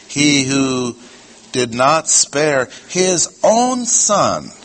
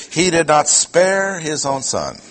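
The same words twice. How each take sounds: First: Slow right down and lift "his own"; stress on his own. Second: "spare" punched high, "his own son" falling away; stress on spare. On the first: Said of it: "I will say". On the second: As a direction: put the weight on the verb "spare". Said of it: "That's not correct". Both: Shown as a demonstration.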